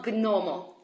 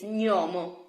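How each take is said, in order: First: Gnomo said "guh-nomo", g and n separate; hard-g gnomo. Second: Gnomo said "nyo-mo"; Italian gn. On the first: Teacher shows learners the mistake, "gnomo" with a hard g. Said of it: "it's not gnomo". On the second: Teacher corrects learners, "gnomo" said as nyo-mo. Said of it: "it's gnomo". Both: Shown as a demonstration.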